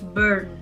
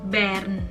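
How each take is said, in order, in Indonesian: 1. Itu terdengar seperti kata bahasa Inggris burn. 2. Itu tidak terdengar seperti burn dalam bahasa Inggris. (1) "Kalau burn jadinya dibakar dong" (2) "Disebutnya yaitu Bern"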